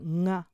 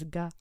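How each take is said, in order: First: The consonant is a nasal ng sound. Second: The consonant is a plain hard g sound. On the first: "this is almost like an N G sound" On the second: "I've also heard it very clearly spoken as ga"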